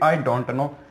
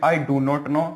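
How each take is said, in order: First: 'Do not' is contracted to 'don't'. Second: 'Do not' is said as two full words.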